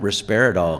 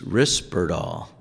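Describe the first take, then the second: First: The name has an extra middle vowel, four syllables. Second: The name has no extra vowel, three syllables. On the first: The speaker calls it wrong. "it's not Risperidol because there isn't a second I" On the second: The speaker calls it right. "It's Risperdal. ... That second I got dropped"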